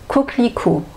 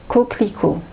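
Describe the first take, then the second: First: Said naturally, with the middle e sound dropped. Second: The same.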